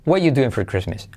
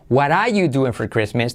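First: The word 'are' is left out completely. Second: The R in 'are' fades and weakens. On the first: "omitimos todo el verbo" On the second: "la R de what are, decae"

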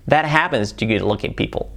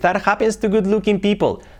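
First: It is said with native-like English sounds. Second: It is said with Spanish-accented English sounds. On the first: The speaker calls it right. "así sería" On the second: The speaker calls it wrong. "Cambia mucho de decir"

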